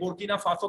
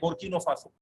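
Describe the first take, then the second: First: The first word ends with an 'a' sound. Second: The first word ends with an 'o' sound. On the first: This is the usual way of saying the name. "बोर्किना फासो कहते हैं" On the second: This is how Arabic speakers say the name. "ये लोग कहते हैं बोर्किनो फासो"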